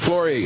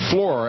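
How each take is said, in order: First: The final E is pronounced as a vowel. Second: The final E is silent.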